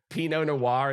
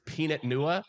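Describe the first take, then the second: First: It is said in a standard accent. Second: It is said in a Long Island accent. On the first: The speaker calls it right. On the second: The speaker calls it wrong.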